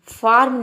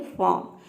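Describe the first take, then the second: First: फार्म loud, with the र fully voiced; wrong pronunciation, r sounded. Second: फार्म with no r, like "faam"; silent r. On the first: Teacher showing students what to avoid, फार्म with audible r. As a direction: say फार्म with a clear r before m. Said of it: "फार्म नहीं". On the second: Teacher giving students the correct form, फार्म without r. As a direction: say फार्म as long aa straight into m. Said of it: "ये होता है फार्म". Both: Shown as a demonstration.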